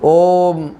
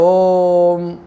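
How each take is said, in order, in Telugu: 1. అచ్చు క్లుప్తంగా, త్వరగా పలకబడుతుంది. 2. అచ్చును సాగదీసి, దీర్ఘంగా పలుకుతారు. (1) "హ్రస్వము అంటే" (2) "దీర్ఘము అంటే"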